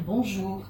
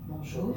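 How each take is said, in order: First: Said in the usual way. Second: Lower, softer Bonjour. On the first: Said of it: "vous allez lui dire". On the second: Shown as a demonstration. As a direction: say «Bonjour.» low and soft. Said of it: "avec une voix un peu grave". («Bonjour.» dit d'une voix grave et douce)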